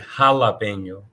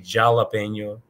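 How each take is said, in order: First: The word begins with a breathy H sound. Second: The word begins with an English J sound. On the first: The speaker calls it right. "J is pronounced as H" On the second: The speaker calls it wrong. "this would not be jalapeño"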